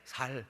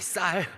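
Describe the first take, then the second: First: The first consonant is a plain, lax s. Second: The first consonant is a tense, strong s. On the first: The speaker cannot produce the intended sound. The speaker calls it wrong. "경상도 분들이 잘 안 되는 발음이 있어요" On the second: This is the form being asked for. The speaker calls it right. "쌀 해봐"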